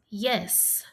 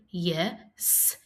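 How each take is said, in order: First: Said in the usual way. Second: "yes" split into "ye", pause, "sss"; sounded out. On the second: Shown as a demonstration. Teacher inviting pupils to help, yes split as ye, s. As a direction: set the final S of "yes" apart. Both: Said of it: "Help me say".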